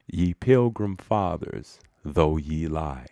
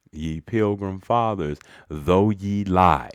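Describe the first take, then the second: First: Said in the usual way. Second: "lie" stretched out and louder; stress on lie. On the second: Acted. Orator punning on the Pilgrim Fathers, stress on "lie". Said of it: "Emphasis, you see, is on the word lie".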